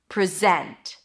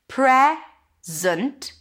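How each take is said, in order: First: The stress is on the second syllable. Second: The stress is on the first syllable. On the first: It is a verb. "if I shift the stress to the second syllable gets the vowel, zent" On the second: It is a noun. "zunt, then there is no vowel here"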